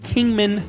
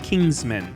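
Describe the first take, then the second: First: The name has no s sound after King. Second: The name has an s sound after King. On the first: The speaker calls it right. "the correct way to pronounce the town I'm in is" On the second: The speaker calls it wrong.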